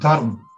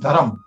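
First: Gujarati form, ending in -rm. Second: Northern Indian form, ending in -am.

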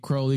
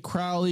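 First: The name is said to rhyme with holy. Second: The name is said to rhyme with foully. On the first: People think he is holy. "because I'm holy" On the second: People think he is foul. "because they think I'm Fowley"

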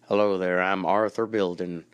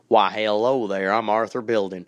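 First: It is said in a neutral accent. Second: It is said in a Southern US accent.

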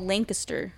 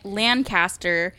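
First: It is said the Pennsylvania way. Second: It is said the California way. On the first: "in Pennsylvania it's called Lancaster" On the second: "in California it's called Lancaster"

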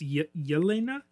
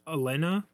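First: The name begins with a 'y' sound. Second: The name begins directly with a vowel sound. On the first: The speaker calls it right. "but it's Yelena" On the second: The speaker calls it wrong. "I thought it was just Elena"

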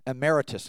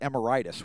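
First: The word is said the ordinary, standard way. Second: The word sounds like the name of a disease. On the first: The speaker calls it right. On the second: The speaker calls it wrong.

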